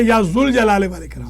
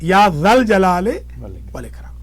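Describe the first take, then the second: First: The second word has an 'u' vowel, 'jul'. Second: The second word has an 'a' vowel, 'jal'. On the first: The speaker calls it wrong. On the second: The speaker calls it right.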